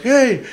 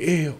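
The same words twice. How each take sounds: First: The word is called out loudly. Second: The word is said softly and quietly. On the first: The speaker calls it right. "you're gonna yell like" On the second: The speaker calls it wrong. "you're not gonna say like"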